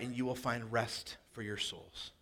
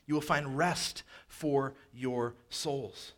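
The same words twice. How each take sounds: First: Said in the usual way. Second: Very slow, rest leaned on hardest; slow emphasis. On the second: Acted. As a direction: let each word land, stressing rest. Repeat, much slower.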